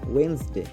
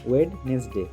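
First: The first 'd' sound is silent. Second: The first 'd' sound is pronounced. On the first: The speaker calls it right. "ঠিকঠাক উচ্চারণ হবে ওয়েন্সডে" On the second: The speaker calls it wrong. "ভুল উচ্চারণ করে বলি"

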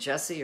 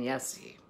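First: The name begins with a J sound. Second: The name begins with a Y sound. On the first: This is the usual American way to say it. "just being a plain old American here and saying Jesse" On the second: This follows the original language's pronunciation. "they don't pronounce the J's"

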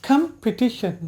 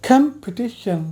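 No difference in how they are said.

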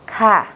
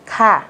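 The two takes are said the same way.

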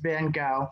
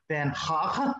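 First: The name is said with an American pronunciation. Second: The name is said with a Dutch-like pronunciation. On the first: "I'm just gonna do it the American way" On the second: "if we were going to be really authentic, it would be something closer to"

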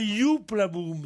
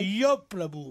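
First: The first word has an 'oo' vowel. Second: The first word has an 'o' vowel. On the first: The speaker calls it wrong. "ne dites pas Youp la boum" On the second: The speaker calls it right.

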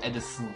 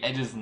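First: The s in the name is sharp. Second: The s in the name is soft. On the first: The speaker calls it wrong. "nicht Allison" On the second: The speaker calls it right. "Mit einem weichen S"

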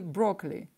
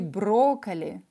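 First: The word is pronounced with English sounds. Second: The word is pronounced with Russian sounds. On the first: "по-английски брокколи" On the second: "По-русски брокколи"

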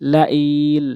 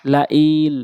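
Both takes have the same delivery.

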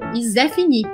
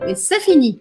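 First: The first word begins with a z sound. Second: The first word begins with an s sound. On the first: The speaker calls it wrong. "Não existe Zé Fini em francês" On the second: The speaker calls it right. "o sé virou zé"

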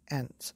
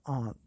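First: The vowel is a short, flat 'a'. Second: The vowel is a long, broad 'ah'. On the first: The speaker calls it wrong. "People in the USA have trouble with the wind, the words they say" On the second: The speaker calls it right. "Instead of aunt"

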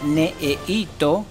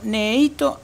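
First: Every vowel is fully pronounced. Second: A vowel is dropped, leaving a buzzing sound. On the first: "no se dice la palabra necesito" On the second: "sino necesito... suena un sonido como de una vibración o un zumbido"

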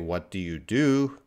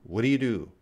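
First: It is said slowly and carefully. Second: It is said very fast.

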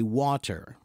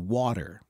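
First: The word is said slowly with a hard T in the middle. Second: The word is said quickly with a soft D in the middle. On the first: "when you say it slowly, you say water ... it's a hard T" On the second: "When you say it quickly with an American accent, you say water ... it's a soft D"

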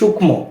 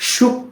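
First: An m sound is heard in the cluster. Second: No m sound is heard in the cluster. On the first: The speaker calls it wrong. "আমরা অনেকে কিন্তু এটাকে বলি সূক্ষ্ম, না সূক্ষ্ম বলা যাবে না" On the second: The speaker calls it right. "এটা হচ্ছে কি সূক্ষ্ম। ... মফলা রয়েছে কিন্তু এর কোনো উচ্চারণ হয় না"

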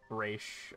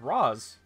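First: The name ends with a 'sh' sound. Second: The name ends with an 's' sound. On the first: This is the cartoon version of the name. The speaker calls it wrong. "Raish was just something that they decided upon for the animated series" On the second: This is the name in its original language. The speaker calls it right. "the correct pronunciation is Ra's"

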